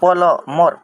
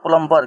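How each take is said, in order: First: The word is said without a b sound. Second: The word is said with a b sound. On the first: This is how it is said in English. "English में उच्चारण करते हैं प्लमर" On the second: This is how most people say and write it in Hindi. "ज़्यादातर लोग ऐसे ही बोलते हैं और लिखते भी हैं"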